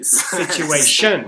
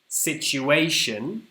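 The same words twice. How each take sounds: First: The stress is on the fourth syllable. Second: The stress is on the third syllable.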